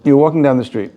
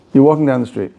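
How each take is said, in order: Both takes have the same delivery.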